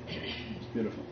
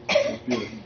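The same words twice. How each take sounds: First: Whispered in wonder; awed whisper. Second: Said in the usual way. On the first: Real, not acted. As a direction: breathe it out in awe. Awed whisper, then repeated.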